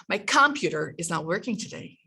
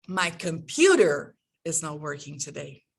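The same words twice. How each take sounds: First: "computer" stressed on the first syllable, COM-puter; wrongly stressed "computer", strong first syllable; misplaced word stress. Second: "computer" with a long, strong PU in the middle; stress on second syllable. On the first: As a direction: punch COM in "computer", rush the rest. Misstressed example, listeners are confused. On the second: Corrected take after confused listeners. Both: Shown as a demonstration.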